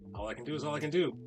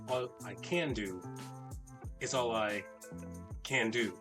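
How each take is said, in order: First: It is said with a dismissive, shrugging tone. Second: It is said with an earnest, committed tone. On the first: Not much effort was made. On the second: Every possible effort was made.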